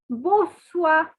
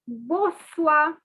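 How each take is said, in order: Both takes have the same delivery.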